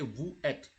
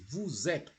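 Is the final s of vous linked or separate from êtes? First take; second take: separate; linked. First: The two words are kept separate, unlinked. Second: The s is linked into the next word. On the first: The speaker calls it wrong. "You can never say vous êtes" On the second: The speaker calls it right. "You have to join. It is vous êtes"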